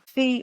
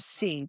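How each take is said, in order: First: The word begins with an f sound. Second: The word begins with an s sound. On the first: The speaker calls it wrong. "that's a speech error" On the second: The speaker calls it right. "instead of see"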